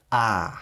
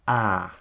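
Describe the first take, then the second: First: А drawn out and compressed; long squeezed a. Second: Said in the usual way. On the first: Shown as a demonstration. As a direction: squeeze and hold the А. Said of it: "це його здавлювати". (довгий здавлений а) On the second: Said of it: "І наш для порівняння а".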